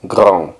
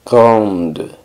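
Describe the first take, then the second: First: Grand ending on the nasal vowel, no D; masculine, silent D. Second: Grande with its D clearly released; feminine, sounded D. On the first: Teacher recaps the masculine form, grand with silent D. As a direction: say grand as "grahn". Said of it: "grande masculino". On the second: Teacher recaps the feminine form, grande with sounded D. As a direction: say grande as "grahnd". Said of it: "Y femenino". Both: Shown as a demonstration.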